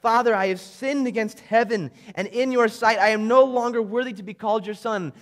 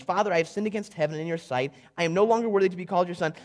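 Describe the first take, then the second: First: A touch of tearful pleading, fuller voice; tearful plea. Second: Rattled off fast like a memorised line; rehearsed speech. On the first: The son to his father on his return, mildly tearful. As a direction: plead through tears, lightly played. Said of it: "through his tears and as he's sitting here crying". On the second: Reading the son's rehearsed speech, quick and recited. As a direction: rush it like lines he practised. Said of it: "here's his rehearsed speech". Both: Acted.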